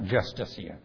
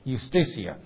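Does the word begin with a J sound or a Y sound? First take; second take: J sound; Y sound. First: The word begins with a J sound. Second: The word begins with a Y sound. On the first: The speaker calls it wrong. "not Justitia" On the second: The speaker calls it right. "It was Justitia"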